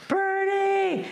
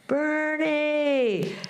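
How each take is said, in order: First: Calling out. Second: High, drawn-out call of a name across a field. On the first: Real, not acted. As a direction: yell it down the road to a friend. Calls out to approaching friend. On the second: Retold or imitated. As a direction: call him from far down the road. Showing the guys how to call.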